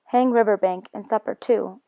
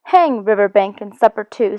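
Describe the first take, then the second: First: Said in the usual way. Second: "Hang" thrown out hearty and louder. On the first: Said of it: "means forget about Riverbank". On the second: Acted. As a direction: dismiss "Riverbank and supper too" with hearty gusto. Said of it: "said the Rat heartily".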